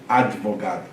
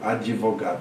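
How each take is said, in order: First: The d closes the syllable with no added vowel. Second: An i sound is inserted after the d. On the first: Few people say it this way. "Difícil você ver alguém falar advogado" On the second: Most people say it this way. "Geralmente fala advogado. ... tem uma iodização"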